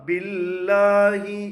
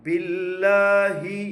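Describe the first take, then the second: Both takes have the same delivery.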